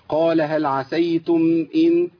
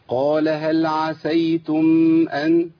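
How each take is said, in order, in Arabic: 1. الكلمة الأخيرة تبدأ بالحركة 'i'. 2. الكلمة الأخيرة تبدأ بالحركة 'a'. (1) "إن" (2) "ما تنفعش"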